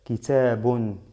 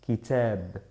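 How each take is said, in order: First: The word ends with a final -un sound. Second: The word ends without the final -un sound. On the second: "con la omisión que tengo que hacerla"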